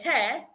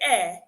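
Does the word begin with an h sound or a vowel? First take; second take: h sound; vowel. First: The word begins with an h sound. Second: The word begins with a vowel sound. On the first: "In words like hair" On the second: "they'll say air"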